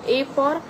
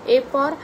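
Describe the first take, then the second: The two takes are said the same way.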